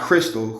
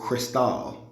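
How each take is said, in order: First: It sounds like the ordinary word crystal. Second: It sounds like the name of the wine. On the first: The speaker calls it wrong. "Not crystal" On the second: The speaker calls it right. "like the wine"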